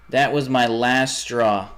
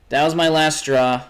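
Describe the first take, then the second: First: Slow, each word spelled out; slow deliberate repeat. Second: Higher and louder, fed up; loud exasperation. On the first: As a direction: drag the words out, fed up. Repeats line, slowed right down. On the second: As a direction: shout the last straw. Repeats line, raised and loud. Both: Real, not acted.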